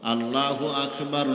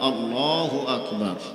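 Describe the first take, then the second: First: The L in Allah is light and thin. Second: The L in Allah is heavy and full. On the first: The speaker calls it wrong. "নয়" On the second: The speaker calls it right. "মোটা করিয়া পড়িতে হয়"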